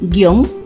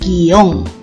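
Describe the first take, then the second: First: The word is said as one syllable. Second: The word is said as two syllables. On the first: "Algunas personas pronuncian guión" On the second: "otras pronuncian en dos sílabas"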